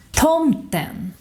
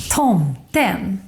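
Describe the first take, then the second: First: TOMTEN high on "tom", falling to "-ten"; single-peak "tomten", stressed first syllable then down; acute accent. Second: TOMTEN up, down, then up on "-ten"; double-peak "tomten", both syllables given weight; grave accent. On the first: Teacher demonstrating acute accent, "tomten" high then falling. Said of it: "stress in the first syllable". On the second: Teacher demonstrating grave accent, "tomten" in two peaks. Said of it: "goes up in the beginning". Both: Shown as a demonstration.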